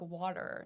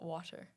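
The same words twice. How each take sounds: First: The middle T is soft and sounds like D. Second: The middle T is crisp and clearly released. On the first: "when you make a, a T sound like a D" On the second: "if I enunciate more, it goes away"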